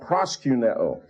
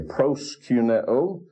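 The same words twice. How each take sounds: First: The first-syllable vowel is not a clear 'oh' sound. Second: The first-syllable vowel is a clear 'oh' sound. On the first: The speaker calls it wrong. "not proskuneo" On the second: The speaker calls it right. "that's why I say proskuneo"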